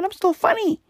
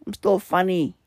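First: Much higher, strained mock-defiant squeak; squeaky insistence. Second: Said in the usual way. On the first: Telling listeners he's still funny, squeaky and defiant. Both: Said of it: "I'm still delivering the fucking funny".

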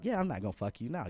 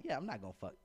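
First: Plainly spoken payback in a retold exchange; retold refusal. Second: Softer retold thought to oneself; understated aside to oneself; private inner thought. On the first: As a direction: voice it openly to the other person. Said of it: "so I'm like". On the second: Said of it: "But in my mind, I'm like".

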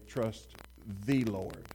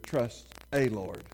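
First: The Lord with stress on "the"; "the" slightly weighted before "Lord". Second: "Trust a Lord", slow, with "a" in place of "the"; "a" set off against "the"; swapped article demo. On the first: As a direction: lean on the word "the" in "the Lord". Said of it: "the emphasis being on "the". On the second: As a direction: slowly try "a" instead of "the". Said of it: "what if I said". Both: Shown as a demonstration.

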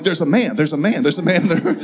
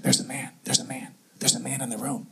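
First: Mock-scared, repeated at full voice; retold panic. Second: Very soft, low, repeated murmur; imitated frightened whisper. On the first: Husband echoes wife's warning, retold panic. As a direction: babble it in pretend panic. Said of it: "now I'm afraid". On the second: Wife warns husband at night, imitated frightened whisper. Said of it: "I'm kinda whispering. And she's, and she says".

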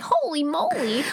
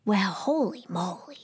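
First: Higher holy moly. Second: Hushed holy moly. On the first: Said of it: "Ava's like". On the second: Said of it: "she's like". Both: Retold or imitated.

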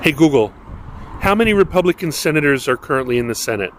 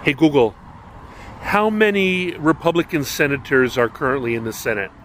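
First: Louder, faster repeat to Google; repeating to voice assistant. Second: Talking to voice assistant. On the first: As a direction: say it again, louder, to the speaker. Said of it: "repeats the question after no answer". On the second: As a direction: address the smart speaker clearly. Asking the voice assistant. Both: Real, not acted.

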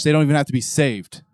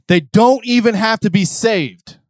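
First: Said in the usual way. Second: "They don't even have to be saved" slow, high and loud; emphatic repeat. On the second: Shown as a demonstration. Preacher repeating the line louder to the congregation, emphatic.

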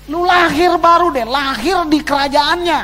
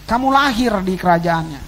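First: A light, higher, easygoing voice for God talking to a believer; breezy, as if God says it offhand; casual voice of God. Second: Said in the usual way. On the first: Retold or imitated. Preacher voicing God's casual promise to the congregation, lightly higher. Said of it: "Tuhan cuman ngomong begini". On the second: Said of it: "restates the quote as the preacher".

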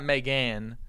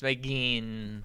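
First: "Megan" said may-GAN; rejected pronunciation. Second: "Megyn" said slowly as may-GEEN; insisted pronunciation. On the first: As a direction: end "Megan" on an open "an". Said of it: "It's not Megan". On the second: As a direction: stretch the ee in "Megyn". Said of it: "It's Megyn". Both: Shown as a demonstration.

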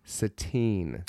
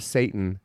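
First: Put-on Satine as suh-TEEN, softer; pronounced Satine. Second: Satan as SAY-tun; pronounced Satan. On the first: Host landing on the right name, pronounced Satine. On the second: Host ruling out the everyday word, pronounced Satan. Contrasting pronunciations of the name. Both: Shown as a demonstration.

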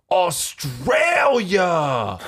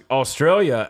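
First: Put-on long, high drawn-out drunken shout; drunk Nick's bellow. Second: Said in the usual way. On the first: Bouncer imitating trashed regular spotting Australians, drunken holler. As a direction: stretch the word out in mock amazement. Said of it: "the dude Nick was just like". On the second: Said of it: "I'm like".

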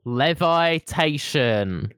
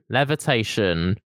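First: Levitation slowly with long vaɪ; slow pun reading. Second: Said in the usual way. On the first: Shown as a demonstration. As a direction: stretch Levitation to sound like Levi's. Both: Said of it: "worst thing I've ever said".

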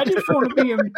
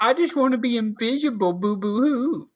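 First: High mock whine; hammed-up whiny sob; fake crying. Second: High, hammed-up whining sob; mock blubbering boo hoo; fake crying. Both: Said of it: "I'm kidding, Bryce".

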